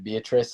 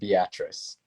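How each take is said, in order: First: Pronounced like the common given name. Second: Pronounced the local way, unlike the given name. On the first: The speaker is not from the area. The speaker calls it wrong. "you said Beatrice" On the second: The speaker is from the area. The speaker calls it right. "and not Beatrice"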